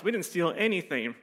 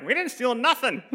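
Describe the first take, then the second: First: Lightly voiced mom protesting; a mild mock denial from mom; mom's denial. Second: High-pitched indignant grandma; grandma's protest. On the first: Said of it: "my mom's like". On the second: Retold or imitated. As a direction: imitate grandma's comic, outraged denial. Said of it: "Grandma's like".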